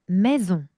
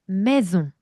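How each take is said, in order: No difference in how they are said.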